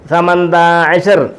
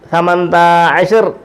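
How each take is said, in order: First: The first word is shortened, with syllables dropped. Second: The first word is shortened, with syllables dropped.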